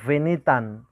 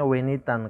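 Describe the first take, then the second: First: The word begins with a V sound. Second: The word begins with a W sound. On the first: The speaker calls it wrong. "beliau membaca di awal dengan kata venitan" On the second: The speaker calls it right. "Jadi bacanya harusnya wenitan"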